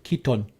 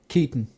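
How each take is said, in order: First: The second syllable's vowel is fully stressed. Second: The second syllable's vowel is weak and reduced. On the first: The speaker calls it wrong. "you don't really put the emphasis on the O. It's not Keaton" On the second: The speaker calls it right. "It's like Keaton"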